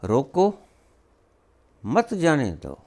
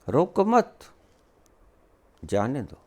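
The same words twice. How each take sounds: First: There is a pause after the first word. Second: There is a pause after the second word. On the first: Stop them; do not let them go. "शब्दों के ठहराव" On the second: Do not stop them; let them go. "अर्थ बिल्कुल विपरीत"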